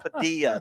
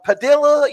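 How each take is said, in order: First: The double L is said as a Y sound. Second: The double L is said as an L sound. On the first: The speaker calls it right. "The L's make a Y" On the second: The speaker calls it wrong. "How do you pronounce this one name"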